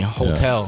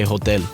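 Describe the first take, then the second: First: It is said with an English accent. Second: It is said with a Spanish accent.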